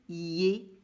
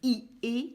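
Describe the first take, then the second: First: One syllable with a y glide, yé. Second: Two separate vowel sounds, i then é. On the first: The speaker calls it right. "je vais lire yé" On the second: The speaker calls it wrong. "Je ne vais pas lire I et"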